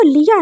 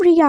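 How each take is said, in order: First: लिया with an l in place of r; mocked lisp. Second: Said in the usual way. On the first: Boyfriend repeats the boy's mistake, लिया with an l. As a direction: echo the lisped name लिया. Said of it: "इसका नाम रिया है". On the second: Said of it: "लिया नहीं है".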